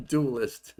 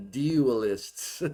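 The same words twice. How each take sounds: First: "Dualist" with a hard t-like start, a failed try at her vowel; first stab at "Dualist", still sounding like himself; attempted pronunciation. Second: "dualists" said as "dee-a-lists", copying her vowel; copied pronunciation. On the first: Repeating "Dualist" after the clip, not quite getting it. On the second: Retold or imitated. Reviewer mimicking the lecturer's "dualists" pronunciation. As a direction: nail her "dualists" with the clipped dee sound. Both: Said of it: "No, I can't say it".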